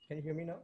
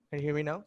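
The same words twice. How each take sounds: First: Said in the usual way. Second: Speaking up for the mic; louder. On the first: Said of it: "your voice is very low". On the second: Real, not acted. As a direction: lean in and speak up. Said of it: "You'll have to speak louder".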